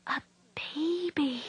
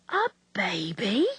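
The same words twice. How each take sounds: First: Slow breathless whisper of delighted surprise; a soft slow whisper, amazed and glad; startled pleased whisper. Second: Put-on slow incredulous whisper rising on baby; a slow hushed gasp of a question, horrified; shocked whispered question. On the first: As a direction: breathe it out in wonder. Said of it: "said in a startled but pleased whisper". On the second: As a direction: hiss it back in disbelief. Nurse echoes in disbelief. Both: A narrator's reading.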